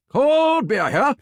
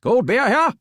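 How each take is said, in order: First: Slow, drawn-out high beer call; stadium vendor hawking. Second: High, loud ballpark beer call; stadium vendor hawking. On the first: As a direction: stretch it out like a ballpark vendor. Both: Shown as a demonstration. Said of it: "Let's hear what you got".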